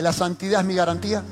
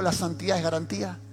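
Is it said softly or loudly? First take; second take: loudly; softly. First: It is said more loudly. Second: It is said at normal loudness.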